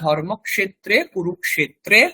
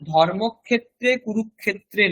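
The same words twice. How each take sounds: First: The cluster is pronounced as k followed by sh. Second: The cluster is pronounced as a plain kh sound. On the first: The speaker calls it right. "ওটা" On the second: The speaker calls it wrong. "নয়"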